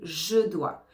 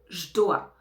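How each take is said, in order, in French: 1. Le e de 'je' est entièrement prononcé. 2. Le e de 'je' est supprimé. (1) "au lieu de" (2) "on peut enlever le E du pronom personnel je"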